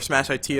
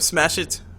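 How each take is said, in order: First: The last part is spelled out as letters. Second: The last part is said as one word.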